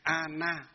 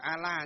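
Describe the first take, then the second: First: The middle consonant is an n sound. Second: The middle consonant is an l sound. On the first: The speaker calls it right. "Ana chứ không phải Ala nhé" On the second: The speaker calls it wrong. "không phải Ala"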